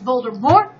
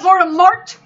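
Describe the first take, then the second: First: The final t is silent. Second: The final t is pronounced. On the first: The speaker calls it right. "it's a French tea" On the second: The speaker calls it wrong. "Not Voldemort. That's something that grows on your feet"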